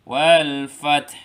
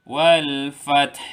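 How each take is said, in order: First: The last word ends on a bare consonant. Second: The last word ends on a bare consonant.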